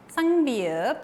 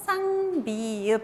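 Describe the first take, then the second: First: Said in the usual way. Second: Lectura más lenta. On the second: Shown as a demonstration. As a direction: draw out each syllable of "쌍비읍". ("쌍비읍" leído lento, sílaba por sílaba) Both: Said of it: "vamos a leer más lento".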